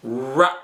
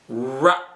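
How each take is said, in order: First: The R sound is said the English way. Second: The R sound is said the English way.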